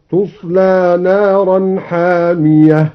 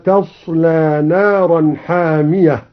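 First: تصلى said as tusla with a rounded u on the taa, slow recitation; taa with damma. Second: Said in the usual way. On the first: Shown as a demonstration. Teacher demonstrates the passive reading tusla, slow recitation. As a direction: open تصلى with tu instead of ta. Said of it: "هكذا". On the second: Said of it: "بضم التاء".

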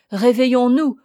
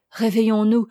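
First: "réveillons-nous" louder and rising in force; louder rousing call. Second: "Réveillons-nous" said firmly, only slightly raised; firm rousing call. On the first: Hermit to the grieving pair, louder, insistent "réveillons-nous". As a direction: drive "réveillons-nous" home with more force. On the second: Hermit to the grieving pair, first measured "Réveillons-nous". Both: A narrator's reading.

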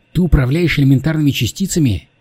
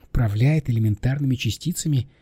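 First: Higher, pointed demand to know; firmly insistent questioning. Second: Mildly disbelieving question; understated incredulity; incredulous echo. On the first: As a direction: press for an answer, pitch raised. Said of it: "настойчиво спросила девушка". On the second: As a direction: repeat it back in disbelief. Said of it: "как на идиота". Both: Acted.

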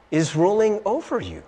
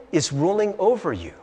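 No difference in how they are said.

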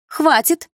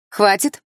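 First: Much higher and louder second cry; higher shout. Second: First cry, raised and louder; quick echo shout. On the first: Malina echoes the man's order: higher second shout. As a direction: push the repeat up to a shrill peak. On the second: Malina echoes the man's order: first raised cry. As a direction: snap it out once. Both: Acted. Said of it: "тут же подхватила Малина".

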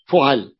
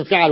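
First: فعل said "fu'al", short u after the fa; damma pattern. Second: فعل said "fi'al", short i after the fa; kasra pattern. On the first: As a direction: open فعل with a u, then a before the lam. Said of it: "ولم يأتي على فعل". (فعل بضم الفاء وفتح العين) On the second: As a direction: open فعل with an i, then a before the lam. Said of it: "على وزن فعل ولم يأتي على فعل". (فعل بكسر الفاء وفتح العين) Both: Shown as a demonstration.

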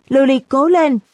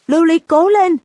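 First: Softer repeated cheer. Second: High, loud chant like a game-show crowd; cheering shout. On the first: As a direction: echo the cheer, easing off. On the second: Class cheering at the screen for their friend, loud high shout. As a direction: yell it out to cheer her on. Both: A narrator's reading. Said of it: "vung tay và hét vào màn hình".

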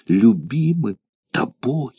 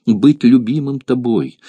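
First: Slow, softer, savoured; lingering joy. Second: A light lift of joy; joyful. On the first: The gladiator repeats it to himself, slow and savouring. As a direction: draw it out as if savouring it. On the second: The gladiator rejoices to be loved, lightly joyful. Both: A narrator's reading. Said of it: "в невыразимом порыве радости".

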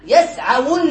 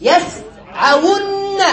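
First: Said in the usual way. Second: "يسعون" very slowly as yas, then awunna with a long n; syllable by syllable. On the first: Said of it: "فنقول يسعون". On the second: Shown as a demonstration. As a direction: split "يسعون" and hold the doubled n. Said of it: "فنقول". (نطق "يسعون" ببطء مقطعًا مع إطالة النون المشددة)

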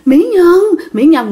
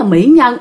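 First: A lightly voiced ghost calling "Mỹ Nhân"; creepy ghost voice. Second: Said in the usual way. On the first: Ghost whispering "Mỹ Nhân" to the woman it holds, lightly eerie. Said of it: "mà kêu mẹ là Mỹ Nhân á". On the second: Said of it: "ý là khen mẹ đẹp".

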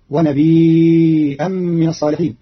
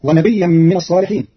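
First: ونبيا with long ya then hamza, slow; nabi'an, drawn out; Qalun reading. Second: ونبيا with doubled ya; Hafs reading. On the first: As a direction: stretch ونبيا four beats before the hamza. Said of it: "بإسكان الياء مخففة بعدها همز". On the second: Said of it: "قرأ قالون كلمة ونبيا". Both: Shown as a demonstration.

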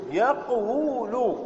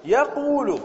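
First: Drawn-out "يقول" as yaq-wu-lu, waw sounded; underlying form. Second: "يقول" as ya-qoo-lu, long u, higher pitch; resulting form. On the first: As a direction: say "يقول" slowly as yaq-WU-lu, stopping on the q. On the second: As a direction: glide smoothly through "يقول" as ya-QUU-lu. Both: Shown as a demonstration. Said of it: "إذن".

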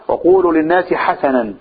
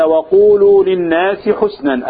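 First: حسنا read ḥasanan, two open a vowels; the other reading, حسنا as ḥasanan; reading hasanan. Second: حسنا read ḥusnan, short u then silent s; reading husnan. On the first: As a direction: say حسنا as ḥa-sa-nan. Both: Shown as a demonstration. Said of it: "ففي قراءة".

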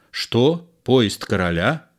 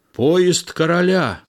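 First: Mild disbelief, rising at the end; astonished question. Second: High, ringing announcement; announcing cry. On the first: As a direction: echo it as a puzzled question. De Guiche questions the news. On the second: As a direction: call out momentous news. The coachman's cry is relayed. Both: A narrator's reading.

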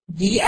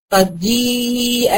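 First: Said in the usual way. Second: جيء with the long ya held well before the hamza; جيء بمد الياء; stretched madd. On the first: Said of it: "الجيم دي المفروض إن هي مكسورة". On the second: Shown as a demonstration. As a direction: draw out the ya in جيء very slowly. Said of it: "أهو، مد بالياء".

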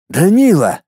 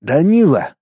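First: Higher, firmer questioning call; collected, raised-pitch call; slightly louder. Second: Dazed, questioning name call; stunned, restrained call. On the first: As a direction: call the name with more insistence. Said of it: "чуть громче повторил свой вопрос". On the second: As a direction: say the name in a stupor. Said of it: "в прострации произнёс Пуговкин". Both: A narrator's reading.

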